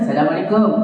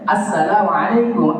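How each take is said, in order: First: The opening sounds are slurred and unclear. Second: The opening vowel and s-sound are clearly pronounced. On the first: The speaker calls it wrong. "Jangan aja assalamualaikum" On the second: The speaker calls it right. "Alif sama sinnya jalan-jalan"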